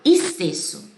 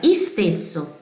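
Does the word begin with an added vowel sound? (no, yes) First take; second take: no; yes. First: The word starts directly with st, no added vowel. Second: An extra i vowel is added before the st. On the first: The speaker calls it right. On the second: The speaker calls it wrong.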